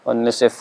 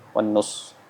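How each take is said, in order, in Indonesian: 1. Kata terakhir berakhir dengan bunyi f. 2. Kata terakhir berakhir dengan bunyi s. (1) "Bisa dibaca nisf" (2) "atau yang antum sering dengar wan nus"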